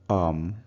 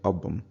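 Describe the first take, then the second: First: The b sound is dropped. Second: The b sound is fully pronounced. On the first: The speech is casual, among family or friends. "everyday conversation at home or with with friends" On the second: The speech is formal. "when you want to speak formally"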